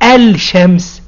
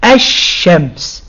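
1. صوت L في ال بيتنطق بوضوح. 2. صوت L صامت وصوت sh مشدد. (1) "وما بنقولش الشمس" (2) "لا بنقول الشمس"

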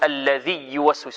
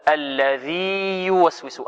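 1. يُدغم حرف المد في الصامت الذي يليه. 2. يبقى حرف المد واضحًا قبل الصامت الذي يليه. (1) "فلا يقرأ الطالب هكذا ... هذا خطأ" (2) "وإنما هي ماذا؟"

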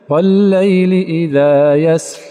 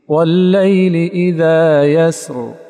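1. صوت r الأخير مهموس. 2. صوت r الأخير مجهور. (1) "لا يصح أن يقول" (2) "لا بد من استجلاب الجهر ثانية"

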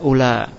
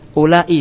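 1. Kata ini berakhir dengan a panjang, tidak ada hentian glotal. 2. Kata ini berakhir dengan hentian glotal dan vokal. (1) "tanpa ada hamzah pada akhir kata, yaitu dibaca ula" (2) "Kalau sebelumnya ditulis apa alifnya itu?"

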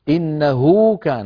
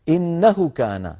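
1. الحركة بعد الهاء مُشبَعة. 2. الحركة بعد الهاء قصيرة. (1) "هكذا يشبعونها" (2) "الأصل المفروض يقولوا إنه كان، إنه كان ضمة فقط"

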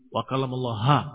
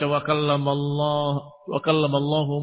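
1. Vokal akhir dari Allaha adalah a. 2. Vokal akhir dari Allahu adalah u. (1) "yang tadinya dhamma jadi fathah" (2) "Bukan hu"

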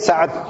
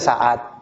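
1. d terakhir mengikuti tanpa vokal tambahan. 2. Ada vokal 'a' tambahan sebelum d terakhir. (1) "Asli Sa'ad" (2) "Contoh Sa'ad dibaca Sa'ad"

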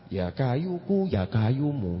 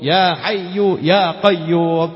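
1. Kata-katanya diakhiri dengan tambahan suku kata ku dan mu. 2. Kata-katanya diakhiri tanpa tambahan suku kata apa pun. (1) "Kacau kan?" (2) "kiainya ngajari ya hayu, ya qayyum"

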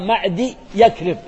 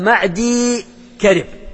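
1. ينتهي الاسم بالأصوات yakrib. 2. ينتهي الاسم بالأصوات karib. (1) "فيه من ينطقها معدي يكرب، غلط" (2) "هي معدي كرب"

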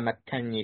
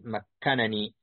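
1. تندمج أصوات النون في نون واحدة مشددة. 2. يُنطق نونان منفصلتان بوضوح. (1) "وقرأ الآخرون بنون واحدة مشددة على الإدغام" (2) "بنونين ظاهرين"

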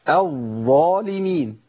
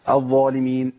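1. الظاء المشددة بتتمسك بثبات قبل ما نكمل. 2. الظاء المشددة بتتعدّى بسرعة. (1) "انا جبتها كده صواب بالشكل الصحيح، ... مشيت الصوت في الظاء الاولى ومكنت لصفه الجهر" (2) "طب الخطا فين يا شيخ؟ ... دايما بحذر من الجري"

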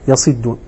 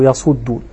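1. الحركة بعد الحرف الأول كسرة. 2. الحركة بعد الحرف الأول ضمة. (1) "الكسر المقيس" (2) "الضم الشاذ"

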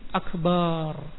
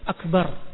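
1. Vokal terakhir itu dipanjangkan. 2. Vokal terakhir itu pendek.

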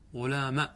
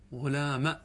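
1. تنتهي الكلمة بفتحة قصيرة. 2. تنتهي الكلمة بفتحة قصيرة.

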